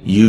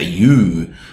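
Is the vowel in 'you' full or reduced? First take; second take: reduced; full. First: The word 'you' has a reduced schwa vowel. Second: The word 'you' has a full, long vowel. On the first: The speaker calls it right. "say you shouldn't" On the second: The speaker calls it wrong. "we don't say you"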